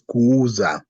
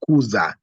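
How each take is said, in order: First: The 'u' vowel is long and doubled. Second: The 'u' vowel is short and single. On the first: The speaker calls it right. "the right word is kuuza" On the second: The speaker calls it wrong. "you don't say it as one word as kuza"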